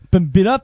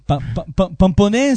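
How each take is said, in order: First: It is said with an English accent. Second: It is said with a southern French accent. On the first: "c'est dans l'Angleterre là-bas" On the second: "c'est dans le sud"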